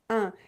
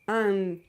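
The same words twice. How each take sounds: First: The vowel is nasal with no final N sound. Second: The vowel ends with an audible N sound. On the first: The speaker calls it right. "You should not pronounce any sound N at the end" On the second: The speaker calls it wrong. "my mouth doesn't do un"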